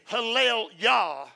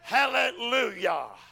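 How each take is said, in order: First: The two parts are joined with no linking vowel. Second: An 'oo' sound links the two parts smoothly. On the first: The speaker calls it wrong. "You can't just say Hallel Yah" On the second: The speaker calls it right. "There's a little fusion that goes between to soften. Hallel, and it's the sound U, Yah"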